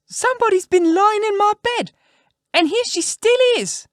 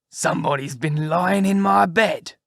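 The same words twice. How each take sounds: First: Put-on very high, loud squeaky baby-bear voice; little wee bear. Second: Slow, loud, rough big-bear voice; great rough gruff bear. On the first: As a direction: squeal it out as a tiny, outraged bear. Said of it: "in his little wee voice". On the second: Acted. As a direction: growl it out slowly as a huge bear. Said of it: "in his great rough, gruff voice".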